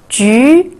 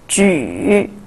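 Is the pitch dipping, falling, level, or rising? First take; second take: rising; dipping. First: The pitch rises from mid to high. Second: The pitch dips low then rises.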